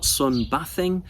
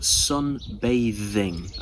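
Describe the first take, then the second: First: The 'th' sound is voiceless, without the voice. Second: The 'th' sound is voiced, using the voice. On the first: The speaker calls it wrong. "not sunbathing" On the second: The speaker calls it right. "but sunbathing. ... it is voiced in this case"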